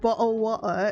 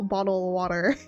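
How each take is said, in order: First: It is said with a British pronunciation. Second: It is said with an American pronunciation. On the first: "Or bottle of water instead of" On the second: "instead of a bottle, bottle of water"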